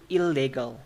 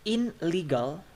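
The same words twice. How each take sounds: First: "illegal" with the n turned to l; stressed, drawn "il-legal"; assimilated ILLEGAL. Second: Slow "in legal" with a clear n; "in" and "legal" sounded separately; unassimilated IN LEGAL. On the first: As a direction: sound an l in place of n in "illegal". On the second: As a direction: keep the n before l in "in legal". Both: Shown as a demonstration. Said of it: "So the ne turns to le".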